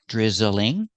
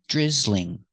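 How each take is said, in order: First: The word is said with three syllables. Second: The word is said with two syllables. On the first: "I can make it three syllables" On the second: "or I can make it two syllables"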